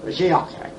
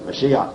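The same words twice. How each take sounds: First: "Mashiach" closed with a guttural throat sound at the end; "Mashiach" ending on a rasped guttural. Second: "Mashiach" ending softly on the vowel, no final guttural; "Mashiach" with an open, plain ending. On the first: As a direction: push the final "ch" of "Mashiach" back in the throat. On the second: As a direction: say "Mashiach" trailing off with no throat sound at the end. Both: Shown as a demonstration. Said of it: "He wants me to get that guttural sound in".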